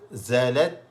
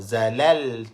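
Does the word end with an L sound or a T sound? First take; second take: T sound; L sound. First: The word ends with a T sound. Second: The word ends with an L sound. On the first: The speaker calls it right. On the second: The speaker calls it wrong.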